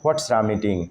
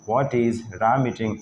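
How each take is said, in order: First: What and is merge into one short word. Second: What and is are said as two full words.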